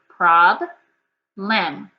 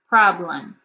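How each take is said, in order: First: The two syllables are said apart with a break. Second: The two syllables are joined without a break.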